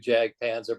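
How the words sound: It is said with an American pronunciation. This is how the band and most fans say it. "the way we do"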